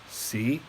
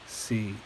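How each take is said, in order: First: The pitch starts low and rises slightly. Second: The pitch stays level in the middle. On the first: "low rising" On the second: "mid flat tone"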